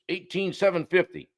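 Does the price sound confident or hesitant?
confident. The price is stated firmly and directly. The price is certain and not up for debate. The speaker calls it right. "our price is eighteen seven fifty"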